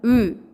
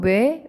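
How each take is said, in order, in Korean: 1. 이 모음은 입술을 둥글게 한 채 내는 하나의 단모음이에요. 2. 이 모음은 w에서 e로 넘어가는 이중모음이에요. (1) "원래 단모음 으 이 소리는" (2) "편하게 그냥 이중모음처럼 우리가 발음"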